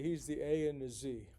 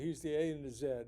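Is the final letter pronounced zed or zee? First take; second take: zee; zed. First: It is said in an American way, with zee. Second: It is said in a British way, with zed.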